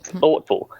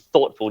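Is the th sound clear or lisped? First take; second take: lisped; clear. First: The th sound is a spitty lisp. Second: The th sound is clear and clean.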